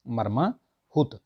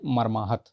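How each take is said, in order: First: मर्माहुत said slowly, syllable by syllable, with हुत; slow spelled-out मर्माहुत ending in हुत; wrong form, drawn out slowly. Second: मर्माहत with a short हत, not हुत; correct form. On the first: Teacher to students, slowly stretching the wrong मर्माहुत. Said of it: "ये हुत नहीं होता". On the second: Teacher giving students the correct मर्माहत plainly. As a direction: say मर्माहत ending crisply in हत. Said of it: "मर्माहत बोलते हैं". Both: Shown as a demonstration.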